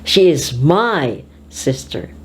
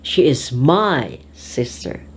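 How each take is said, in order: Both takes have the same delivery.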